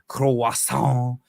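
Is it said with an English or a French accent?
French. It is said with a French accent. The speaker calls it right. "You have to say croissant"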